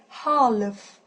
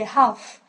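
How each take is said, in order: First: The L sound is pronounced. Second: The L sound is silent. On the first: The speaker calls it wrong. "You don't you don't really say half" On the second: The speaker calls it right. "You just say half... the letter L just goes away"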